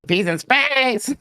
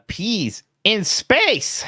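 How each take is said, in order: First: It is said in a Muppet-like voice. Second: The voice cracks partway through.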